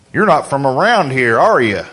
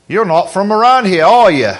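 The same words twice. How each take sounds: First: Imitated small-town country accent, a little lower; country local accent. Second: Attempted British accent that slips into Australian; mock Australian accent; botched English accent. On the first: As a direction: play a country local sizing up an outsider. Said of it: "it won't sound quite like that". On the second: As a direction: imitate an English local, landing on Australian by mistake. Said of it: "Well, that's Australian".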